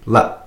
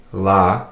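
First: "La" cut short by a glottal stop; short "La", the vowel stopped abruptly in the throat. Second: Said in the usual way. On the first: Shown as a demonstration. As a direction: end the breath quickly on "La". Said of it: "end your breath quickly". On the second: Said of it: "you could have the regular L A".

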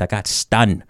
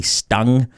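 First: Nuxalk-accented "stunned", ending in n for ng. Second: "stung" ending in ng; standard pronunciation. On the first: Joking about the wasp sting, Nuxalk-accented "stunned". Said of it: "saying it in a New Hulk accent". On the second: Correcting own accented word, "stung" with final ng. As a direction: close "stung" on a back ng sound. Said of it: "It's actually stung". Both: Shown as a demonstration.

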